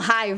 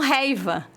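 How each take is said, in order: First: The first vowel is pronounced as 'ai'. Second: The first vowel is pronounced as 'ei'. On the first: This is the standard way of saying it. The speaker calls it right. "Eles não falam raiva" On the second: This is how rural country people say it. The speaker calls it wrong. "eles falam reiva"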